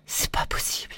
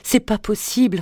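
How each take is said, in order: First: Much softer whispered "C'est pas possible"; "C'est pas possible" whispered low and soft. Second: Higher whispered "c'est pas possible", stressing "c'est"; "c'est pas possible" whispered higher, falling at the end; anguished whisper. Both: A narrator's reading. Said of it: "répéta-t-elle".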